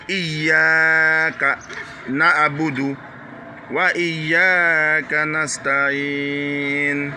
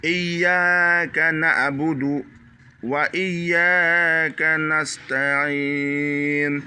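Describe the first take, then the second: First: Iyyaka with a pressed double Y and long A; slow corrected recitation; hard Y, long A. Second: Iyyaka na'budu held slow; slow Quran recitation. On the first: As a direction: press the YY and hold the A. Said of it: "le Y doit être, euh, dur". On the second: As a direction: recite very drawn out. Recites verse slowly. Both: Shown as a demonstration.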